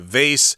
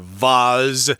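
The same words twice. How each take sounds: First: It is said with an American pronunciation. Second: It is said with a British pronunciation. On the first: "Americans say vase" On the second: "I think the British say vase"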